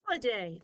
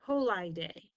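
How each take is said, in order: First: Holiday with a short i, hol-uh-day; correct pronunciation. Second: Ho-li-day said as ho-lie-day with the long i sound; wrong pronunciation. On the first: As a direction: say Holiday the normal way, the i a quick schwa. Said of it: "That makes sense". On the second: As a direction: blend Ho-li-day with i as in lie, a trial that fails. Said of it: "That doesn't make sense". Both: Shown as a demonstration.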